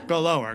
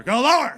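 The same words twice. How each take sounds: First: Louder put-on dog plea; mildly worked-up dog voice; talking dog, losing it. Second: High, very loud dog plea; frantic mock-dog begging; talking dog, losing it. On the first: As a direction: start the dog's begging, held back. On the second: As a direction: blurt it high as the overexcited dog. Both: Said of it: "He started losing his mind".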